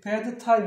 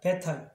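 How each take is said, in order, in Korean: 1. 'bad'의 d는 발음해요. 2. 'bad'의 d는 발음 안 해요. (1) "그냥 bad time이 아니라" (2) "앞에 있는 D 발음은 안 하셔도 돼요"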